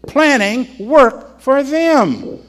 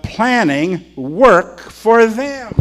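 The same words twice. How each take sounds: First: "Planning work for them" slow and higher; slow emphatic repeat. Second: "planning work for them" drawn out slowly, higher; slow emphatic. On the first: Preacher repeats the quote for emphasis, slowly. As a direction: say each word slowly and weightily. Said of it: "That's what it says". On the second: Preacher drives home his key phrase slowly. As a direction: spell it out word by word. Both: Shown as a demonstration.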